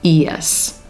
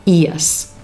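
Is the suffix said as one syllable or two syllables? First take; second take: two syllables; two syllables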